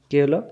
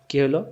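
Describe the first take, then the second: No difference in how they are said.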